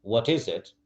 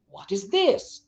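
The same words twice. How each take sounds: First: Said in the usual way. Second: THIS pitched high; changed intonation. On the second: Shown as a demonstration. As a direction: lift THIS well above your usual voice. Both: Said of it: "Sometimes I change the, and intonation".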